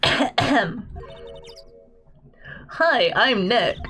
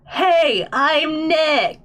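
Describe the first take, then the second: First: It is said at normal, quieter volume. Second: It is said noticeably louder.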